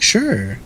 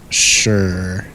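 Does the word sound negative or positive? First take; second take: positive; negative. First: It is said in a positive, agreeable tone. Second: It is said in a negative, grudging tone. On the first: Things are good. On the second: Things are not good.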